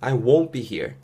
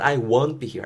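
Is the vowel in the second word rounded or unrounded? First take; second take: rounded; unrounded. First: The vowel in won't is rounded, like woe. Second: The vowel in won't is unrounded, like want. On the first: The speaker calls it right. "입술 둥글게 말면서 won't be here" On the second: The speaker calls it wrong.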